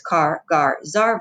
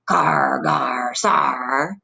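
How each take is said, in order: First: Said in the usual way. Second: Low, drawn-out pirate growl on each ending. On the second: Shown as a demonstration. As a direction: draw each syllable out like a pirate. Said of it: "you sound like a pirate".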